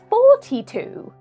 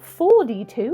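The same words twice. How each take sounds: First: It is said with a British pronunciation. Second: It is said with an American pronunciation. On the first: The speaker calls it right. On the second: The speaker calls it wrong. "It's not"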